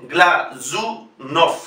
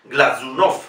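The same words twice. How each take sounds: First: Glazunov broken into gla-zu-nof, very slowly; voiced Z. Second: Glazunov as one word, stressed on "NOF"; lower-pitched whole Glazunov, rising on the end; final stress. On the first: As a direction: buzz the Z in syllable-by-syllable Glazunov. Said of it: "es del fonema Z". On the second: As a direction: run Glazunov together with voiced Z. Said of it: "Es una palabra aguda". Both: Shown as a demonstration.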